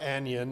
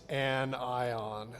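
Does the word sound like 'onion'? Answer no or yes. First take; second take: yes; no. First: The word is pronounced like onion. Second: The word is not pronounced like onion. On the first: The speaker calls it wrong. "you don't pronounce that like onion. It's not anion" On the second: The speaker calls it right. "it's anion. There we go"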